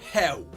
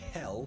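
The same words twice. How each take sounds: First: The final L sounds like a W. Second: The final sound is a clear L.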